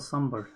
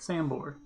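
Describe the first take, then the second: First: It is pronounced closer to the Indian way. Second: It is pronounced the way an American reads it. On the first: The speaker calls it right. "or something closer to that" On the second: The speaker calls it wrong. "because I was reading it how I would read it, just based on the text"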